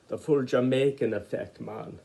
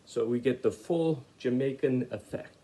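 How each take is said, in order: First: Lightly put-on Jamaican accent, barely shifted; a quick half-hearted try at a Jamaican accent. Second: Said in the usual way. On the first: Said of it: "That was a Jamaican accent, not a very good one". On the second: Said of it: "That was a Jamaican accent".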